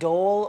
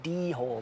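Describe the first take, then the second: First: The word is said as one syllable. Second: The word is said as two syllables. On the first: "Is it dole" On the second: "or is it d hole?"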